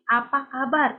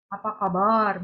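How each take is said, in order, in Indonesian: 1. Sapaannya diucapkan dengan jelas dan utuh. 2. Sapaannya diucapkan dengan longgar dan tidak jelas. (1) "Tapi apa kabar? Itu M C"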